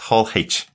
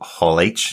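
First: The letter H is said the Irish way. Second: The letter H is said the American way. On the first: "as we would say over here" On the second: "Big Americans call it H, so Hall H sounds much easier"

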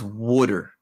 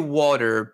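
First: It is said in a traditional Baltimore accent. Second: It is said in the speaker's plain accent.

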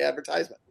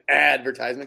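First: The stress falls on a later syllable. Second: The stress falls on the first syllable. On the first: "but I say advertisement" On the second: "it probably should be an advertisement because it's an ad"

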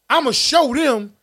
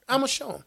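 First: It is said in a forceful, aggressive tone. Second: It is said in a calm, relaxed tone. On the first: The speaker wants to retaliate. The speaker calls it wrong. "As opposed to saying it from an aggressive perspective" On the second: The speaker intends to prove themselves peacefully. The speaker calls it right. "Say it calmer"

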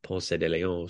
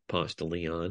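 First: The name is said the standard way. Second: The name is said the local Atlanta way.

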